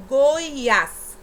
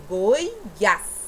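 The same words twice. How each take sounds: First: "Goiás" called out loud, weight on "ás"; stress on last syllable. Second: "Goiás" very slow, broken as "Goi... ás"; split into syllables. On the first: Teacher reading out an example word, loud stressed "Goiás". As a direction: say Goiás loudly as one word, pushing "ás". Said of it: "É a última sílaba também". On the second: Teacher showing pupils the last syllable, slow split "Goi-ás". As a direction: stretch Goiás out, setting "ás" apart. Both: Shown as a demonstration.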